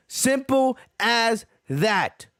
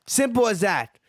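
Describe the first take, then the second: First: Simple as that drawn out slowly, each word weighted; slow emphatic. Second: Said in the usual way. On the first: Real, not acted. Closing the rant to viewers, Simple as that said slowly and emphatically.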